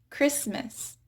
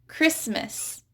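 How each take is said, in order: Both takes have the same delivery.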